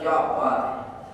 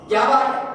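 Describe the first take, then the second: First: It is said in a warm, admiring tone. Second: It is said in a harsh, scolding tone.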